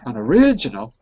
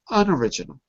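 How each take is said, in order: First: The stress is on the third syllable. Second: The stress is on the first syllable. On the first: The speaker calls it wrong. "If it was the third, it would be an original. But it's not" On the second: The speaker calls it right. "the first, exactly. Not the third"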